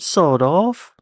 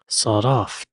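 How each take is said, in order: First: It is said in a British accent. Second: It is said in an American accent. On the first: It sounds scary. "when you say it with a British accent" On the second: It sounds harmless. "they really don't sound right in an American accent"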